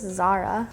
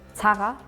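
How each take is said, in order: First: The Z is pronounced soft, English style. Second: The Z is pronounced hard, German style. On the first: "English is just Zara" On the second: "we pronounce the Z really hardly"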